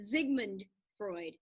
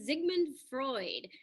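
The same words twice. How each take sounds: First: Sigmund begins with a Z sound. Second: Sigmund begins with an S sound.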